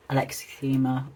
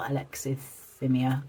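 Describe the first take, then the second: First: "alexithymia" said with a long EE, like "alexi-THEE-ma"; tentative pronunciation. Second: "alexithymia" said slowly, ending "THIM-ee-a"; alternative pronunciation. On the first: Unsure how to pronounce it, first attempt with "theema". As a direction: try "alexithymia" ending in "theema". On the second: Unsure how to pronounce it, slow second attempt with "thimia". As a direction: sound out "alexithymia" slowly with a short I and "mia" ending. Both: Shown as a demonstration. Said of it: "not sure how to pronounce it".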